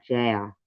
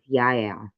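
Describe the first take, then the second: First: The name begins with a J sound. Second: The name begins with a Y sound. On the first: The speaker calls it wrong. "You don't say J" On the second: The speaker calls it right. "It's pronounced Yael"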